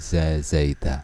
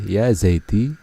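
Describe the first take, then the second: First: The name ends with the vowel a. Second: The name ends with the vowel i. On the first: "tidak boleh" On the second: "Tidak boleh"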